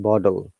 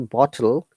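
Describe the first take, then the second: First: The t sounds like a soft d. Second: The t is a crisp, clear t sound.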